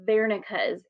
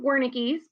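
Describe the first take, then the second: First: The name begins with a V sound. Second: The name begins with a W sound. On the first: The speaker calls it right. "the correct pronunciation is" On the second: The speaker calls it wrong. "it looks like"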